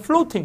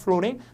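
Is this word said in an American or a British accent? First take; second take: British; American. First: The middle t is pronounced clearly and crisply. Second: The middle t is softened to a quick d. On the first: "영국 사람들 floating 이렇게 써요" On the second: "미국 사람 거의 floating 이렇게 쓰거든요"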